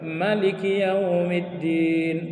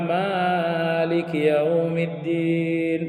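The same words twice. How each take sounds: First: The first vowel 'ma' is said short. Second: The first vowel 'ma' is held long. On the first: God is the one who rules the Day of Judgment. "Anda bisa baca pendek" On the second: God is the one who owns the Day of Judgment.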